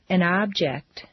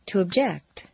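First: First syllable of "object" stressed; "object" as a noun, OB-ject. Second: Second syllable of "object" stressed; "object" as a verb, ub-JECT. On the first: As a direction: hit OB in "object". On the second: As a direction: hit JECT in "object", reduce the first vowel. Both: Shown as a demonstration. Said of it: "regular transitions of nouns and verbs".

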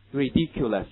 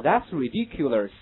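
First: "Ridiculous" said with a plain r at the start, no curl; teacher's corrected version. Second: "ridiculous" said with a curled r at the start, slowed; mock wrong American r, slowly; wrong r-coloured ridiculous. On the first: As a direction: model the clean r in "Ridiculous". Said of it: "没有卷舌音在这个地方". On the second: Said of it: "不要读成什么". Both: Shown as a demonstration.

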